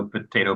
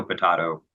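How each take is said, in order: First: Potato with "ay", puh-TAY-toe; usual pronunciation. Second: Potato with "ah", puh-TAH-toe; alternative pronunciation. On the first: Expert comparing dialects, potato as puh-TAY-toe. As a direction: say potato with a long "a". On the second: Expert comparing dialects, potato as puh-TAH-toe. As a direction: say potato with a broad "a". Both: Shown as a demonstration. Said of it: "no right way to pronounce".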